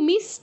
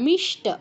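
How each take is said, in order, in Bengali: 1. s ধ্বনিটি সাধারণ দন্ত্য স। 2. s ধ্বনিটি মূর্ধন্য sh। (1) "কেউ মিষ্ট বলবো না" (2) "কারণ মূর্ধন্য ষ যুক্ত আছে"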